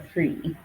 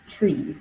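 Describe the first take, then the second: First: The word begins with a th sound. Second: The word begins with a t sound. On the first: "the substitution of the th sound" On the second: "we'll hear tree for three"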